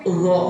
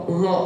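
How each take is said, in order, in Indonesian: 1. Konsonan pertama ujung lidahnya menyentuh gigi. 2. Konsonan pertama ujung lidahnya menyentuh gigi.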